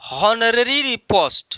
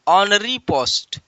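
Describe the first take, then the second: First: The first word begins with an h sound. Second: The first word begins with a vowel sound. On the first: The speaker calls it wrong. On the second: The speaker calls it right.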